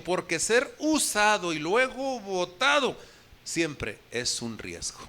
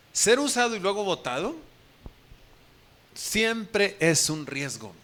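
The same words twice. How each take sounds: First: Slow, weighty first reading; slow emphatic phrase. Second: Slow, deliberate second take; repeated emphatic phrase. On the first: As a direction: drag it out for weight. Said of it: "Se escuchó fuerte, ¿verdad, Pamela?". (frase lenta y enfática) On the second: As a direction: lean on each word, very slowly. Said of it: "Pero es una verdad". (repetición lenta y deliberada) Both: Shown as a demonstration.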